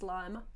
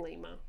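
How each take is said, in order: First: "Lima" with an eye vowel; "Lima" like the bean; Lima as LIE-ma. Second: "Lima" with a long ee vowel; "Lima" rhyming with "dreamer"; Lima as LEE-ma. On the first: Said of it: "let us know if it's Lima". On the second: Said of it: "I'm saying Lima". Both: Shown as a demonstration.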